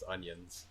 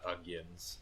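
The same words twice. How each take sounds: First: No g sound is heard inside the word. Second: A g sound is heard inside the word. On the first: The speaker calls it right. "it's onions" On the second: The speaker calls it wrong. "we always called them like onions, and it's not onions"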